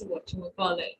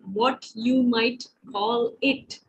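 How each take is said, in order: First: The words are said fast and run together. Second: The words are said slowly and separately.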